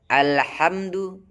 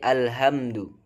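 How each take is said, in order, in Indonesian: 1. Bunyi h adalah bunyi tegang dari tengah tenggorokan. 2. Bunyi h adalah bunyi napas ringan dari dalam tenggorokan. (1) "ha tengah tenggorokan" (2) "tertukar menjadi ha pangkal tenggorokan"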